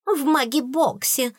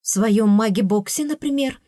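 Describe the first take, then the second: First: High-pitched taunting echo; mocking mimicry. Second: Mild indignant exclamation; exclaiming. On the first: Spiteful fairy parroting the princess, high and mocking. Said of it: "передразнила зубная вредина". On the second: Princess telling the fairy where to sleep, exclaiming. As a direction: exclaim it, lifting the pitch at the end. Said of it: "воскликнула я". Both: A narrator's reading.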